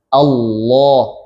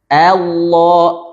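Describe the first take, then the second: First: The vowel is a full, thick 'a'. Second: The vowel is overdone and drifts toward 'e'. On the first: The speaker calls it right. "Allahnya tebal" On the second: The speaker calls it wrong. "terlalu berlebihan pada harokat fathahnya ... ini salah ya"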